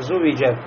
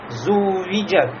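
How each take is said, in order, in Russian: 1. Звук w короткий, не удвоенный. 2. Звук w удерживается слишком долго. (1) "нельзя здесь упустить вот это удвоенность" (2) "нельзя впасть в чрезмерность, буксовать на этом звуке"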